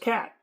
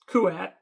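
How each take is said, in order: First: The name sounds exactly like the word cat. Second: The name sounds like Kuat, not cat. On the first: This is how the speaker used to say it. The speaker calls it wrong. "back then I pronounced it as Cat" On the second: This is the corrected pronunciation. The speaker calls it right. "Well, Kuat"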